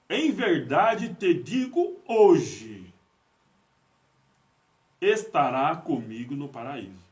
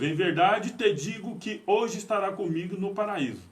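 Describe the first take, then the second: First: There is a pause right after 'hoje'. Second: There is no pause right after 'hoje'. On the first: The promise is being made today. The speaker calls it right. "agora eu vou pôr uma vírgula aqui" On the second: They will be in paradise that very day. The speaker calls it wrong. "Eu vou falar do jeito que está escrito aqui"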